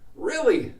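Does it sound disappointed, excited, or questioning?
excited. It sounds confirming with a little excitement. The speaker confirms the information happily. "with a little bit of excitement"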